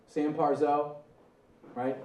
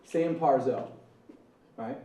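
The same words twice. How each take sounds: The two takes are said the same way.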